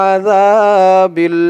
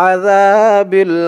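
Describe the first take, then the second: The two takes are said the same way.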